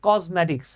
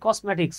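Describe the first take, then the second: First: The middle consonant is a z sound. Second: The middle consonant is an s sound. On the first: The speaker calls it right. "উচ্চারণ হচ্ছে কসমেটিক্স... এসটা জ হয়ে যায়" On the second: The speaker calls it wrong. "আমরা অনেকে এটাকে উচ্চারণ করি"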